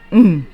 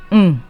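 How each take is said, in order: First: The hum is on a low, dropping pitch. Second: The hum is on a low, dropping pitch.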